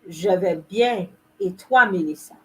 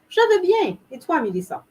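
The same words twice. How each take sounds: First: It is slow with every sound fully pronounced. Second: It is fast with sounds shortened and run together. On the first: "I'm overly exaggerating the pronunciation" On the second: "for somebody like me who's accustomed to saying it"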